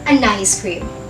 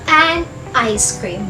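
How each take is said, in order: First: The first two words run together as one. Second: The first two words are said separately. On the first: The speaker calls it right. "but an ice cream" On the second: The speaker calls it wrong. "Not an ice cream"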